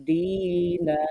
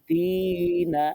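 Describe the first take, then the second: The two takes are said the same way.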